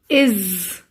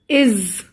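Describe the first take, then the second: First: The word ends with a buzzing z sound. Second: The same.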